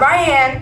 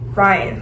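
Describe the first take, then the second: First: The name ends with a full 'ann' sound. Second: The name ends with a weak 'un' sound. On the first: The speaker calls it wrong. "Not Ryan. ... my nickname would be Ann" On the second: The speaker calls it right. "Like the boy's name"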